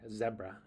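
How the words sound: It is said in a British accent.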